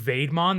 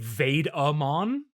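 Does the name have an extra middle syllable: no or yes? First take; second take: no; yes. First: The name has no extra middle syllable. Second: The name has an extra middle syllable. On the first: The speaker calls it right. "instead of saying Vaidmon" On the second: The speaker calls it wrong. "they say Vaid-a-mon, like it's Betamon or something"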